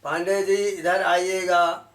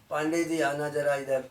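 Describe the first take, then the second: First: Louder, higher, slowly lengthened request; long dirgha call. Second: Everyday, unstretched request; short hrasva call. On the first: Teacher calling Pandey ji over, lengthened dirgha. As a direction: stretch the long vowels as you call. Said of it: "दीर्घ हो गया". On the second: Teacher asking Pandey ji over, short hrasva. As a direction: call someone nearby with short vowels. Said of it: "ये ह्रस्व हो गया". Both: Shown as a demonstration.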